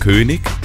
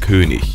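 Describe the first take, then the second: First: The word ends in a k sound. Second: The word ends in a ch sound. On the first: The speaker calls it wrong. "Auch nicht König" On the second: The speaker calls it right. "sondern König"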